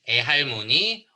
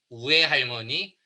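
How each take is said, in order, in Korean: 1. 첫 모음은 단순한 'e' 소리예요. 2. 첫 모음은 'u'이고 뒤에 'e'가 와요. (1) "에대처럼 발음" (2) "우에로 발음"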